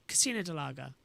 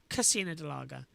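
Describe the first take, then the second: The two takes are said the same way.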